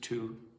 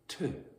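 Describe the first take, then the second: First: The word has a full, clear vowel. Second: The word has a reduced schwa vowel.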